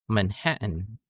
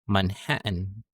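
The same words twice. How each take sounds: The two takes are said the same way.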